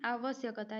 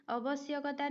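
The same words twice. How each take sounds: First: "आवश्यकता" with long first a, aa-vash-yak-ta; correct form aavashyakta. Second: "आवश्यकता" with short first a, uh-vash-yak-ta; wrong form avashyakta. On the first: ("आवश्यकता" को लंबे आ से शुरू करें) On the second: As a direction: open "आवश्यकता" on a short vowel. ("आवश्यकता" को छोटे अ से शुरू करें) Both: Shown as a demonstration. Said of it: "आवश्यकता नहीं".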